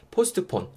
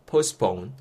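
First: "postpone" with the middle T fully sounded, "post-uh-pone"; every sound pronounced. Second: "postpone" with the T dropped, "pos-pone"; reduced middle T. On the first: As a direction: spell out each consonant in "postpone". ("postpone"을 "포스트폰"처럼 다 발음) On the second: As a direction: glide from S straight to P in "postpone". ("postpone"을 "포스폰"처럼 T 없이) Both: Shown as a demonstration. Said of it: "굳이 다 발음하실 필요 없이".

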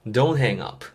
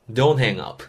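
Both takes have the same delivery.

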